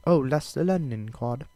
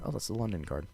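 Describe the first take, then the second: First: A clumsy mock British accent, higher and a bit louder; terrible British accent. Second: Said in the usual way. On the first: Fight podcaster mock-announcing the London card, in a bad British accent. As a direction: take a quick, bad stab at a London accent for "Oh, that's the London card". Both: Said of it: "That was a terrible accent".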